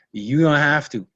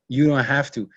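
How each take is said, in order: Both takes have the same delivery.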